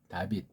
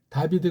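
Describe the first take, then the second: First: The name ends with a clipped final consonant. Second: The name ends with a full final syllable.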